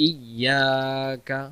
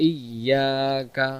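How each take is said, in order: No difference in how they are said.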